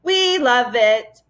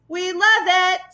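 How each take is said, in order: First: Slow, drawn-out roar of the crowd; roaring mob. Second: Higher roar; roaring mob. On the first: Furry mob roaring at the travellers, slow and drawn out. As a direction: stretch each word like a chanting mob. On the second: Furry mob roaring its delight, pitched up high. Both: Acted. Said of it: "roared a furry mob".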